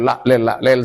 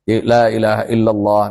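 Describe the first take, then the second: First: The sounds are rushed and slurred together. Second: Every sound is articulated fully and clearly. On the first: The speaker calls it wrong. "sampai kayak gitu lah, itu tidak boleh" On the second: The speaker calls it right. "Hak-hak huruf, sifatul huruf tetap"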